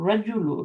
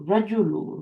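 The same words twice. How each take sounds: First: The first vowel is short. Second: The same.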